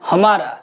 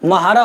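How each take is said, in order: First: It starts with a full 'ha' syllable. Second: It starts with a clipped 'mh' cluster. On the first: This is the usual standard form. "हम normally बोलते हैं हमारा" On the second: This is the Khari Boli dialect form. "खड़ी बोली में क्या होता है? म्हारा हो गया"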